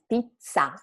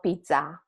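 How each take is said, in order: First: Pizza with a held, strong double Z; long double consonant. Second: Pizza with a short, weak Z; single consonant, wrong. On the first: Teacher shows students the double consonant in pizza, held long. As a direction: stretch the zz in pizza into a firm "ts". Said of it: "make the sound a little bit longer". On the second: Teacher warns students off this pizza, short single consonant. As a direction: say pizza without holding the middle consonant. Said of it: "not pizza". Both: Shown as a demonstration.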